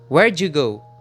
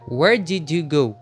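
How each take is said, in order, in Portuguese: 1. As palavras são ditas juntas e reduzidas. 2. Cada palavra é dita separada e completa. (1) "Com o connective" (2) "Sem o connective speech ficaria"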